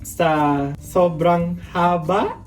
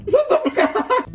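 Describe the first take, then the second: First: Said in the usual way. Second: Very high chipmunk-like repeat; comic high-pitched replay; squeaky replay. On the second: Real, not acted. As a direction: repeat it as a tiny squeaky echo.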